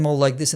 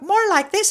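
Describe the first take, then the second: First: The voice is pitched lower and deeper. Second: The voice is pitched higher and lighter. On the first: This is how the speaker sounds in Spanish. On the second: This is how the speaker sounds in Danish.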